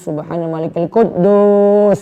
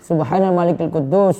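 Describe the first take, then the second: First: It is said loudly, the last word drawn out. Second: It is said at normal volume, last word short.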